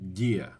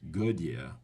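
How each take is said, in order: First: The g and d join with no vowel between. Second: An extra vowel sound separates the g and d. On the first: The speaker calls it right. "There's no U H sound in between the G and the D" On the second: The speaker calls it wrong. "It's not gadia"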